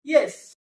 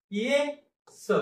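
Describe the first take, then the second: First: येस said fast as one syllable; quick and joined. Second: Very slow, syllables pulled apart; split apart. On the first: Teacher showing pupils the right way: येस quick and joined. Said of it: "पटकन उच्चार आहे". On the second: Teacher showing pupils the wrong way: ये, स slowly split. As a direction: drag ये and स apart with a long gap. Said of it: "असं वाचायचं नाही". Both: Shown as a demonstration.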